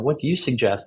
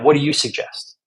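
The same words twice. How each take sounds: First: It sounds open, curious and sincere. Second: It sounds inflammatory, antagonistic and defensive. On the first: The speaker genuinely wants advice. The speaker calls it right. "I would love that feedback" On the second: The speaker feels attacked and is pushing back. The speaker calls it wrong. "you say it kind of more inflammatory"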